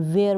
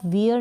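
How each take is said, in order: First: वेयर with an "ay" vowel, "way-er"; correct pronunciation of wear. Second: वियर with a long ee glide, "wee-er"; mispronounced wear. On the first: Teacher models the right reading of wear, correct pronunciation. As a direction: say वेयर with the ए sound. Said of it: "इसको ए के रूप में वेयर बोलेंगे". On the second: Teacher shows learners what not to say, mispronounced wear. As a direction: say वियर wrongly, like "we're". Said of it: "इसको आप वियर नहीं बोलेंगे". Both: Shown as a demonstration.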